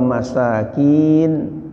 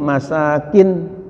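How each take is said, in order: First: The vowel in the last syllable is long. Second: The vowel in the last syllable is short. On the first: It means poor people. "kalau ada iyanya jamak dari miskinun" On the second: It means dwellings or villas. "masakin tanpa ada iya"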